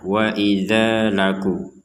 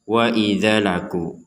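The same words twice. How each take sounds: First: The vowel in idza is held for two beats. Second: The vowel in idza is cut short. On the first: The speaker calls it right. "jadi dibaca dua harokat" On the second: The speaker calls it wrong. "jangan dibaca"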